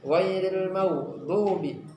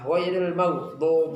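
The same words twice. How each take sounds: First: The vowel after d is rounded. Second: The vowel after d is unrounded. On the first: The speaker calls it right. "yang benar adalah isti'la tetapi dia dhammah" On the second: The speaker calls it wrong. "tidak memonyongkan mulut... seperti fathah"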